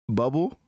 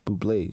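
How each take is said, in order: First: The name ends like the word bubble. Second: The name ends with an 'ay' sound. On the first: "I don't know if that's how you say it" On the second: "one of them fancy pronunciations like Bublé"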